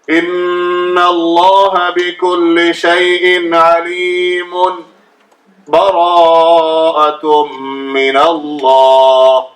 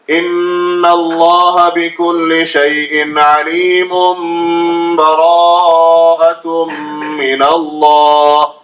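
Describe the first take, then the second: First: A short breathless pause separates the two phrases. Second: The two phrases run together without any pause. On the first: "giving sakta after completing the last ayat. Give a small pause" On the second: "joining all together without reciting A'udhu billahi in between"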